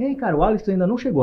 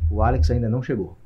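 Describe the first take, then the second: First: The tone is warm and friendly. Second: The tone is cold and flat.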